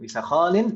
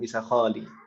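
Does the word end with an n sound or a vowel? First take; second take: n sound; vowel. First: The word ends with an n sound. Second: The word ends on a vowel, without n. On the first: "Atau bisa kholin, bisa seperti itu" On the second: "Jadi tidak tidak ditanwinkan dalam percakapan ya"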